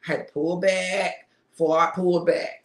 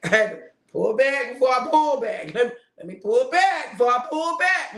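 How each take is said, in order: First: Said in the usual way. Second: Laughing while correcting myself; chuckling self-correction. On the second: Real, not acted. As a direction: say it through a laugh.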